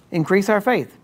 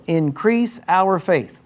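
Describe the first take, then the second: First: Higher, imitating an eager disciple asking; mock pleading disciple. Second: Slow scripture reading. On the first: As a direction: play it as a lightly mocked plea for more faith. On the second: Shown as a demonstration. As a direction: read slowly and evenly, a touch higher. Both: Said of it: "it sounds like a decent request".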